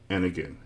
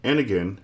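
First: Much softer, trailing off; the repetition fading into quiet. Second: Said in the usual way. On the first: A narrator's reading. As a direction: let it die away. Repeated serving, fading away.

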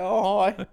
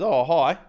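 First: Dad's echoed hello. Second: A higher, louder offhand "Oh, hi" from the son; son's casual hello. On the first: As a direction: echo "Oh, hi" even higher, mocking the son's tone. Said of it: "And I go". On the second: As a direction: toss off a casual greeting as the teenage son. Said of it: "He just looks up and goes". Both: Retold or imitated.

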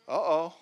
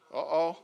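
Both takes have the same delivery.

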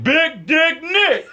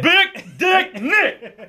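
First: High, slow stretched-out nickname; drawn-out nickname. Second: High, very slow, laughing Denzel-style delivery. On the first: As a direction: draw it out big for effect. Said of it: "You gotta say it like that". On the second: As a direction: savor every word like a movie star. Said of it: "I gotta say it like I'm Denzel". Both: Retold or imitated.

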